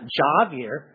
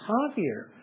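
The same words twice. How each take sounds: First: The name begins with a J sound. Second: The name begins with an H sound. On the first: The speaker calls it wrong. "it's not Javier" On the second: The speaker calls it right. "is pronounced like an H"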